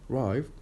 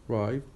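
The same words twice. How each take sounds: No difference in how they are said.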